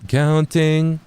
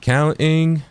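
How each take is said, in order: First: The t is pronounced as a full t. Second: The t is replaced by a glottal stop. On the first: "instead of actually saying the T sound" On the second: "add a little stop there instead of actually saying the T sound"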